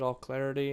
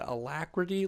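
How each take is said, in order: First: It begins with a full 'all' sound. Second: It begins with a weak 'uh' sound. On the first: The speaker calls it wrong. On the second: The speaker calls it right.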